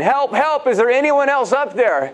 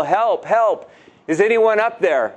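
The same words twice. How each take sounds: First: Much higher, frantic call for help; yelling again for help. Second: Calling for help. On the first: Jack refuses God's answer and yells for someone else, high and frantic. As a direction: call out in high-pitched panic. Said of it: "began to yell again". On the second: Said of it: "began to yell". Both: Retold or imitated.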